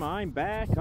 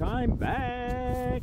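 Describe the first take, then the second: First: Said in the usual way. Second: Sung up high, stretched out playfully; sing-song high repeat. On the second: Acted. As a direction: chant it like a little tune.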